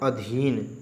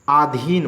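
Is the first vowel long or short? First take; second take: short; long. First: The first vowel is a short a. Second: The first vowel is a long aa. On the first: The speaker calls it right. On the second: The speaker calls it wrong.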